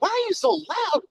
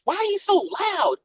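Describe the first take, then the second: First: The question is asked in a sharp, rude tone. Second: The question is asked in a mild, gentle tone.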